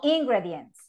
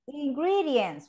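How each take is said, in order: First: The stress is not on the second syllable. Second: The stress is on the second syllable. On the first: The speaker calls it wrong. "no ingredients" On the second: The speaker calls it right. "The second syllable"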